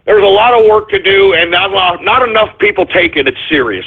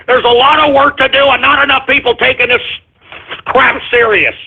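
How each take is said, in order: First: Said in the usual way. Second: Pissed-off repeat. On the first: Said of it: "That's all I'm saying". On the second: Real, not acted. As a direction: hammer the point home, irritated. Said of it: "I'm just pissed".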